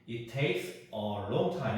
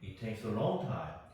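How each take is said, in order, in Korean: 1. s와 a는 따로 발음해요. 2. s와 a는 붙여서 발음해요. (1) "이렇게 하지 말고" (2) "어를 s에 합쳐줘가 합쳐 합쳐가지고"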